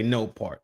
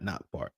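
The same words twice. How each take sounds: First: "no part" with NO lifted clearly; stress on NO. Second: Said in the usual way. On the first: Shown as a demonstration. Correcting the caption's wording, stress on NO. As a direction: lean on the word NO in "no part". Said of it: "not not part". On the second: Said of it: "This was a no part".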